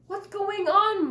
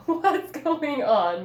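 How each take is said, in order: First: Laughing. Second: Loud, slow, mocking laughing question; laughing, hammed up. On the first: Acted. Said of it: "my brothers laughed". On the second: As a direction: say it better, laughing at her. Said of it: "let me say that better".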